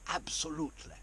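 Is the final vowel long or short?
short. The final vowel is cut off short. The speaker calls it right. "We go absolutely. Okay, so you cut it, it's short"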